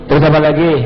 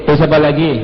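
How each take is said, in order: The two takes are said the same way.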